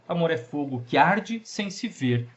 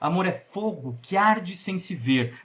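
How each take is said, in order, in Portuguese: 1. 'Fogo' não recebe tonicidade extra. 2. 'Fogo' recebe uma leve tonicidade extra. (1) "sem dar essa secundária" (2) "dando uma pequena tonicidade, uma pequena força também no fo"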